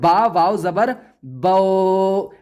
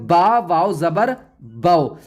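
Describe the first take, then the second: First: The final vowel is drawn out long. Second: The final vowel is short, not stretched. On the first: The speaker calls it wrong. "अब हम इसको ऐसे नहीं पढ़ेंगे" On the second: The speaker calls it right. "अब हम इसको पढ़ेंगे"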